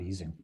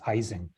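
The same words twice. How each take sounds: First: The name gets its original, non-American pronunciation. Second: The name gets the common North American pronunciation. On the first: The speaker calls it right. "not uh, not" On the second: The speaker calls it wrong. "we almost universally mispronounce his name as"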